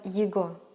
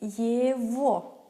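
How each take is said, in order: First: The middle consonant is a g sound. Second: The middle consonant is a v sound. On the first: This follows the spelling. "but we spell" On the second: This is how it is spoken. "We say"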